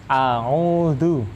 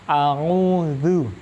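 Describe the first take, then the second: The two takes are said the same way.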